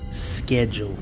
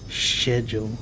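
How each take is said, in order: First: The word begins with a hard 'sk' sound. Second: The word begins with a soft 'ch' sound. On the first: "It's always been schedule. Sk. Sk" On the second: "I know C H is ch. So, schedule"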